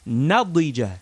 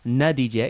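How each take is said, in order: First: The middle consonant is a heavy, emphatic D. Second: The middle consonant is a plain, light D. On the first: The speaker calls it right. "We want to say nadija. ... Get some of that dod in there" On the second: The speaker calls it wrong. "Don't say nadija"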